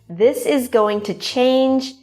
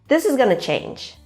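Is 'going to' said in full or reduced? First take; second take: full; reduced. First: 'Going to' is said as two full words. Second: 'Going to' is blended into 'gonna'. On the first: "going to" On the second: "becomes gonna"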